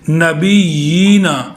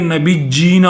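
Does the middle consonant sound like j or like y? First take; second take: y; j. First: The middle consonant is a soft y sound. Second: The middle consonant is a hard j sound. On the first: The speaker calls it right. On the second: The speaker calls it wrong.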